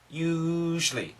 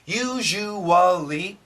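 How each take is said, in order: First: The word is said with two syllables. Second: The word is said with four syllables. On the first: "Two syllables" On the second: "we can say it in four syllables"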